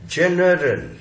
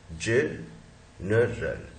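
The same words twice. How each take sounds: First: Said in the usual way. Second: "जनरल" very slow, ज... नरल, softer; syllable by syllable. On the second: Shown as a demonstration. Teacher breaks up the word for students, syllable by syllable. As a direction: pause inside "जनरल" after the first syllable, lower.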